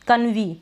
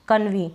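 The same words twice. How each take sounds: First: The word ends with an 'ee' sound. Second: The word ends with an 'ee' sound.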